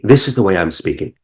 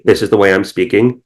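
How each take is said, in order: First: It sounds warm, inviting and in the moment. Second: It sounds flat, like a played-back recording.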